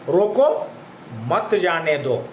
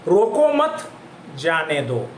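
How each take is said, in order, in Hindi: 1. 'roko' के ठीक बाद विराम है। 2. 'mat' के ठीक बाद विराम है। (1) "रोको के पास यहां पर ये विराम किया गया है" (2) "और दूसरा यहां पर एक और एक उदाहरण है"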